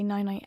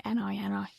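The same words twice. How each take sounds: First: Said in the usual way. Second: "N I N I" said as the clipped "ni ni". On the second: Shown as a demonstration. Cousin's pet goodnight, "N I N I" as "ni ni". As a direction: shorten "N I N I" to two quick "ni" syllables. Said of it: "she'd always say night night".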